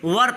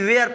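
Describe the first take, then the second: First: The vowel sounds like 'er'. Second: The vowel sounds like 'air'. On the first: The speaker calls it right. "इसको हम लोग वर पढ़ते हैं" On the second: The speaker calls it wrong. "जो कि ये गलत है"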